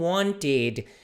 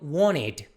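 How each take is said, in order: First: The word is said carefully and in full. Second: The word is said quickly and reduced. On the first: "eles não falam wanted" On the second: "quando as pessoas falam esse verbo no passado rápido"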